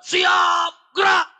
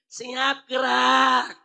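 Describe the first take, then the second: First: Loud, high barked drill command; commander's shout. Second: Limp command. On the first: General commanding marching troops, firm loud shout. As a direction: snap the order like a drill sergeant. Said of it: "Memang harus teriak, tegas". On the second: Weak general mumbling an order to troops, limp. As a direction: say it weakly, no force behind it. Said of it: "kalau jenderalnya nyuruhnya begini". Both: Shown as a demonstration.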